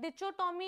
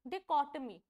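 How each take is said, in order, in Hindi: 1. बीच का व्यंजन 'ch' जैसा बोला जाता है। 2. बीच का व्यंजन 'k' जैसा बोला जाता है। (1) "ये सब नहीं बोलते हैं इसको" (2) "इसकी करेक्ट प्रोनाउंसिएशन है डिकोटमी"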